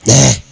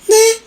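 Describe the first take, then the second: First: It is said in a low, husky voice. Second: It is said in a high, sweet voice. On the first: The speaker's natural voice slipped out by accident. "평소에는 듣도 보도 못하던 그런 목소리로" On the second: The speaker is back to a carefully put-on voice. "예쁜 목소리로"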